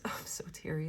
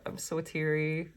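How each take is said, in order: First: Breathy whisper with a little laugh; whispered, teary. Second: Said in the usual way. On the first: Real, not acted. Reader overcome, whispering to viewers. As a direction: whisper it through the emotion.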